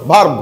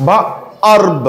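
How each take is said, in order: First: ভার্ব as one short syllable; blended word. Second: ভার্ব stretched in two pieces, va-erb; sounded out. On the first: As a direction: say ভার্ব whole, no break. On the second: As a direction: break ভার্ব before its 'erb'. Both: Shown as a demonstration. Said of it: "এরকম উচ্চারণ হবে".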